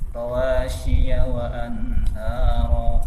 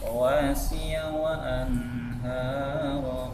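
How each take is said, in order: First: The middle consonant is pressed and sounds like sh. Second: The middle consonant is a light, plain s. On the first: The speaker calls it wrong. "masih-nya itu terlalu menekan tadi, jadi sehingga menimbulkan bunyi shin" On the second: The speaker calls it right. "seharusnya rawasi ya"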